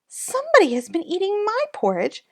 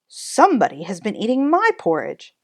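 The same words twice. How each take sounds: First: It is said in a small, high voice. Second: It is said in a deep, gruff voice. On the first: "in his parwa voice" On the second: "in his magna rough gruff voice"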